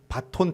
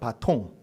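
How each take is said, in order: First: Said ba-ton, with a final n sound. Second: Said ba-tong, with a final ng sound. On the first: This follows the Japanese-style form. The speaker calls it wrong. "일본식 발음 바톤" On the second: This follows the French original. The speaker calls it right. "프랑스 말로 막대기를 뜻하는 바통"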